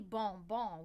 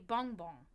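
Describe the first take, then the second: First: It is said with a French pronunciation. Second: It is said with a German-sounding pronunciation.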